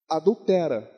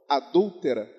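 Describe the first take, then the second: First: The stress is on the third syllable. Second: The stress is on the second syllable. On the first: It orders someone to commit adultery. The speaker calls it wrong. "ele leu como se fosse um verbo imperativo" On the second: It names a woman who commits adultery. The speaker calls it right. "a pessoa adúltera"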